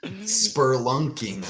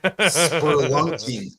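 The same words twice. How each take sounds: First: Slow, softer, sour repeat of spelunking; disgusted. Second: Disgusted drawl. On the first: Repeating the hated word spelunking, slow and sour. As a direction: let the word spelunking drag out with distaste. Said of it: "it's a word I hate". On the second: Repeating a word he hates, slow and laughing. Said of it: "I don't like that word". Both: Real, not acted.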